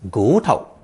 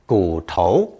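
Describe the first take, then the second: First: The first syllable has a rising tone. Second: The first syllable has a dipping tone. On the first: This is the usual everyday reading. "usually second tone in gu tao" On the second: This is the reading taught in school. "Third tone gu tou is also perfectly acceptable"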